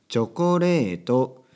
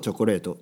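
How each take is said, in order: First: The word is said slowly and carefully. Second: The word is said quickly. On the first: "ゆっくりしっかり発音しようと練習すると" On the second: "これを早く言うと"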